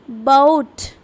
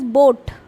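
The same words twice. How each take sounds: First: The vowel glides from one sound into another. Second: The vowel is one steady, unchanging sound. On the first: This is how a native speaker says it. "a native English speaker ... they are going to pronounce it like boat" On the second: This is how a non-native speaker says it. "We pronounce it as boat"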